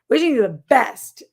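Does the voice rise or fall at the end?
fall. It falls firmly like an exclamation.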